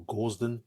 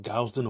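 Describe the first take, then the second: First: Gausden with a long steady first vowel, as in "gauze"; tentative "GAWZ-den" for Gausden; alternative pronunciation. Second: Gausden with a gliding first vowel, as in "gown"; tentative "GOWZ-den" for Gausden; first pronunciation attempt. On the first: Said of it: "forgive me if I'm mispronouncing it". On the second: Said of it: "I hope I'm pronouncing your name properly". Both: Shown as a demonstration.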